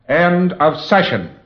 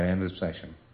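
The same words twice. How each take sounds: First: It is said loudly and positively in a monotone. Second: It is said softly without force or conviction. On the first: The end of the session is firmly put across. The speaker calls it right. "And you end the session the same way" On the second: The end of the session does not register. The speaker calls it wrong.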